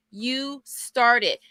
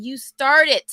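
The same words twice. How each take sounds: First: Said in the usual way. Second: "started" landed louder with a falling finish; emphatic. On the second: Real, not acted. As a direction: punch "started" to praise them.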